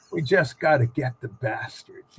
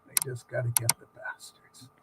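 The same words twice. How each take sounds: First: Retelling her line a second time, still low and dry; repeated deadpan quote. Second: Much lower and softer, deadpan mutter; storyteller imitating the crew-cut woman, low and deadpan; low deadpan quote. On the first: Retold or imitated. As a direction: say it low again, dry and blunt. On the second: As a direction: drop the voice low and flat for her line. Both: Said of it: "And she goes".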